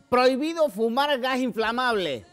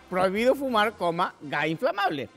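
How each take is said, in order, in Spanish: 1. No hay pausa después de fumar. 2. Sí hay pausa después de fumar. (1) "cuando decimos prohibido fumar gas inflamable" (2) "no es lo mismo decir prohibido fumar, gas inflamable"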